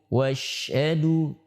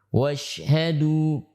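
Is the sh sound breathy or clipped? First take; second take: breathy; breathy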